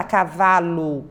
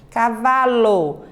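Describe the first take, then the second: First: Cavalo said as cavalu, ending on U; wrong U ending. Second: Cavalo with a full open-mid O at the end, slowly; clear O sound. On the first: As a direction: end cavalo on a U, the odd way. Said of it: "fica estranho". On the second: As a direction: say cavalo ending on a clear O, not U. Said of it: "você pronuncia o O com som de O". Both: Shown as a demonstration.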